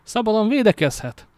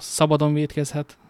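First: "védekezhet" hit higher and louder as a correction; corrected word. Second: "vétkezhet" read as a slip, said plainly; first take with the mistaken word "vétkezhet"; misread word. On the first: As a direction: fix the slip by punching "védekezhet" high and loud. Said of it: "mindjárt lesz értelme ennek a mondatnak". (javítás: a "védekezhet" szót magasabban, hangosan hangsúlyozza) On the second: (a "vétkezhet" szót tévesen, sima hangon olvassa) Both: Shown as a demonstration.

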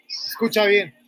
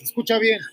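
First: Hushed whisper of the command. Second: Said in the usual way. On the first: Real, not acted. Telling Pradip to listen to the engine, in a whisper. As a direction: lean in and whisper it.

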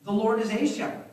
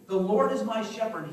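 First: "a" hit with a rise, louder than its neighbours; rising "a", said as a detached doctrine; stress on a. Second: "my" said warmly and personally, with a fall on shepherd; falling line, personal claim on "my"; stress on my. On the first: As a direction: lean on "a" in "The Lord is a shepherd" as if making a dry doctrinal claim. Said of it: "David could have said something like". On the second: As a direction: make "my" in "The Lord is my shepherd" sound intimate and owned. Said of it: "He made it intimate". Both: Shown as a demonstration.

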